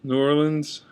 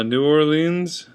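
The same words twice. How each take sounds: First: Said in the usual way. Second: "New Orleans" ending in a long EE, "or-LEENZ"; alternative pronunciation. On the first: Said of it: "usually New Orleans". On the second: Shown as a demonstration. Vlogger giving the other way to say it, long EE pronunciation. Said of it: "I say it either way".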